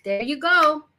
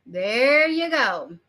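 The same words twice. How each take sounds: First: Said in the usual way. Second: THERE stretched long, very slow "there you go"; drawn-out emphasis. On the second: Real, not acted. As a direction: draw out THERE to drive the point home. Repeats it slowly to drive point home.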